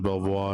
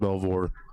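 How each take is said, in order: First: The name is pronounced the French way. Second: The name is pronounced an anglicized way. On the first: This is how it is said in France. "that's how they pronounce it in France" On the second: This is how the family says it. "his family actually pronounces it Belvoir"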